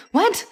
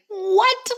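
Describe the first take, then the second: First: High, quick startled what; a short burst of disbelief. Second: High, startled what rising up; shocked what. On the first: Retold shocked protest. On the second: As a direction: disbelief at being sent out alone. Shocked at gas station order. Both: Retold or imitated.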